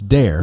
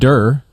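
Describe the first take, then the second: First: The word sounds like 'dare'. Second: The word sounds like 'dur'. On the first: The speaker calls it right. "It's dare" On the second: The speaker calls it wrong. "It's not der"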